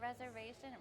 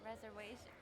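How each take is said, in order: First: The middle consonant is a normal v sound. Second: The middle consonant is said as a w sound. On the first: "instead of reservation" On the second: "instead of making the V sound, they would make the W sound"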